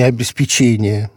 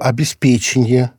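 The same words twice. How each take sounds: First: The stress falls on the fourth syllable. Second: The stress falls on the third syllable. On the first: The speaker calls it wrong. "а не обеспечение" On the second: The speaker calls it right. "я твердо помню, что обеспечение"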